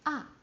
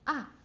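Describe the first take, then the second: First: The pitch drops sharply from high to low. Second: The same.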